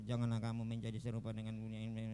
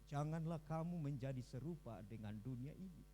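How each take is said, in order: First: It is read in a plain, unpolished way. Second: It is read with lively, newsreader-like intonation. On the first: The speaker calls it wrong. "Bukan seperti kita yang membaca Alkitab" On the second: The speaker calls it right. "intonasinya asik begitu, bacaannya seperti yang di berita-berita itu"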